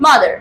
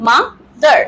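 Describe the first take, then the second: First: Said in the usual way. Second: Mother as ma, short pause, dar; two distinct beats on mother; split into two syllables. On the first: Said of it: "তো father এবং mother". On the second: Shown as a demonstration. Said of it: "আমরা দুটো সিলেবেলে উচ্চারণ করব". (mother শব্দটা দুই সিলেবলে আলাদা করে)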